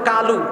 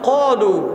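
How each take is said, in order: First: The first sound is a plain, light k. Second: The first sound is a thick, deep q. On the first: The speaker calls it wrong. "এটা কালু না" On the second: The speaker calls it right. "সাতটা অক্ষর মোটা হয়... একটা অক্ষর হলো কফ"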